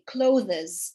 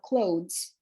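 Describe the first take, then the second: First: The word ending is pronounced in an unusual way. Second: The word ending is pronounced in the usual way. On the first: The speaker calls it wrong. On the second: The speaker calls it right.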